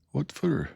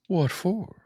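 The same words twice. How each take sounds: First: Said in the usual way. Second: A high breathy whisper, barely voiced. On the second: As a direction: whisper Joe's question under your breath.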